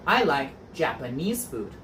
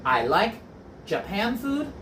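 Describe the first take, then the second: First: Said in the usual way. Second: "Japan food?" rising high in mock doubt; teacher poses "Japan food?" as a trick question; wrong example, questioning. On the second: Shown as a demonstration. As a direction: test the class with "Japan food?", pitched up.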